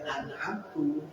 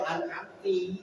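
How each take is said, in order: First: The word ends with a 'u' vowel. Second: The word ends with an 'i' vowel. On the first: The speaker gave the favour. "yang aku beri nikmat. Nah ini bisa merubah makna" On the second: A woman addressed gave the favour. "itu juga bisa berubah makna. Kau perempuan"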